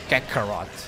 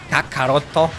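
First: The name is said with an English pronunciation. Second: The name is said with a Japanese pronunciation.

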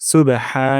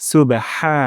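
Both takes have the same delivery.

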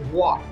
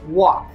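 First: It is said in a demonic monster voice. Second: It is said in a normal voice.

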